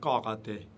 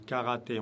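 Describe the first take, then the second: First: The first consonant is pronounced heavy and deep. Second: The first consonant is pronounced light and thin. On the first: The speaker calls it wrong. "on ne dit pas karaté" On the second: The speaker calls it right. "Le français est moins lourd, on dit karaté"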